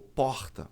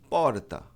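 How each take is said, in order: First: It is said in a Rio accent. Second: It is said in a Mooca accent.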